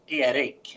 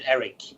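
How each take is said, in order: First: The name is said with Swedish pronunciation. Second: The name is said with English pronunciation. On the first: "if you're gonna pr- pronounce it in Swedish, it's Erik" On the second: "you can say it in English, Eric"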